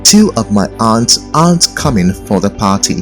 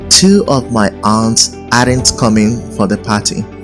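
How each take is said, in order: First: Aren't rhymes with aunt. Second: Aren't does not rhyme with aunt. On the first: The speaker calls it right. "You should say" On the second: The speaker calls it wrong. "It is wrong to say"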